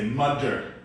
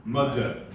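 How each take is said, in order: The two takes are said the same way.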